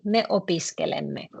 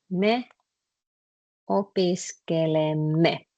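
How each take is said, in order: First: Said in the usual way. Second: Slow, syllable by syllable; slow demo. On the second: Shown as a demonstration. Teacher spelling out "opiskelemme" slowly for the class. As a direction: lay out each syllable slowly for students. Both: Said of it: "you put it like this".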